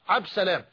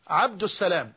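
First: The article before Salam is dropped. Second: The article before Salam is clearly pronounced. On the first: The name is called casually, as in everyday dialect. The speaker calls it wrong. "لا يقولون يا عبد السلام وإنما عبد سلام ... وهذا خطأ لا شك" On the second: The name is said in full, honoring a name of God. The speaker calls it right. "الأولى والأكمل بلا ريب ... أن نقول عبد السلام"

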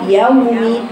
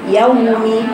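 Both takes have the same delivery.

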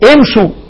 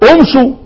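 First: The word begins with an i vowel. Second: The word begins with a u vowel. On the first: The speaker calls it right. "اما لو بدأتها مكسورة زي ما انا بقول لك اهو" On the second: The speaker calls it wrong. "طب ليه انا ما قلتش ايه؟"

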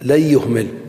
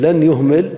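First: The n is merged into the following y. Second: The n is pronounced clearly before the y. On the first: The speaker calls it right. "قلبت النون إلى ياء ثم أدغمت الياء في الياء" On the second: The speaker calls it wrong. "أظهرت"

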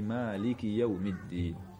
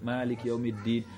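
First: The final vowel is kept and runs into the next word. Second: The word ends cut off, without its final vowel. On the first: The speaker calls it right. "Kalau mau nyambung nafas satu" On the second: The speaker calls it wrong. "Nafasnya satu. Tapi dimatiin semuanya. Gak boleh"

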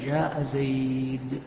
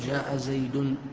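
First: The last word ends on a bare d sound. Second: The last word ends with an added -un sound. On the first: The phrase ends here, at a pause. The speaker calls it right. "نقف على الدال، ما نأتي بالتنوين" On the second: The phrase continues, as if more follows. The speaker calls it wrong. "ما نقول جاء زيد"

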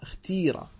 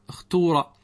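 First: The long vowel after the t is i. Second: The long vowel after the t is u. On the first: "اكسر التاء" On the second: "اللغة الأولى"

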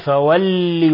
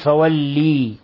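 First: The final i vowel is short. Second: The final i vowel is drawn out long. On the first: The speaker calls it right. "وإنما فولي وجهك" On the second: The speaker calls it wrong. "ولا تقل فولي، لأنك هنا تقلب الكسر ياء"

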